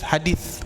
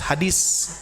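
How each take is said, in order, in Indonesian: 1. Konsonan terakhirnya bunyi th lembut. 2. Konsonan terakhirnya bunyi s biasa. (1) "Ujung lidah nempel ke gigi sari atas, ya. Makanya sebetulnya hadis" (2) "Sanes hadis"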